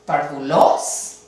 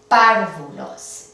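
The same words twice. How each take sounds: First: Parvulos slow with the stress off the first syllable, rising; wrong stress test. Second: Párvulos slow, stress hard on the first syllable PAR, falling. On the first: Teacher trying a wrong stress for students, rising. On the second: Teacher showing the correct stressed syllable, stress on PAR. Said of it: "Esta es la sílaba tónica". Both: Shown as a demonstration.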